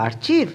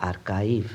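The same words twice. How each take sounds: First: আর্চিভ with a "ch" sound; wrong আর্চিভ, CH; wrong pronunciation. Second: আর্কাইভ with a hard K and a long "ai"; correct pronunciation. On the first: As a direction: mistaken আর্চিভ, "ar-chiv". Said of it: "না, না". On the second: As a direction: say the right আর্কাইভ, "ar-kive". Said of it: "এর সঠিক উচ্চারণ হলো". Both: Shown as a demonstration.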